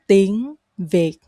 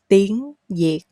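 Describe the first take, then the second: First: Việt begins with a v sound. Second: Việt begins with a y-like sound. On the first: This is the standard way of speaking. "the standard way is to say when is like when you say very in English" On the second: This is a regional way of speaking. "hear people say nhiệt"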